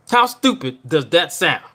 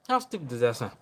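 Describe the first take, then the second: First: Slow, pointed repeat. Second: Much softer, half under the breath; muttered aside. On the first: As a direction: spell it out slowly and firmly. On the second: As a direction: drop it to a mutter. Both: Real, not acted.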